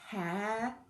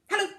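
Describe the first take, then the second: First: It is said very slowly. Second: It is said very quickly.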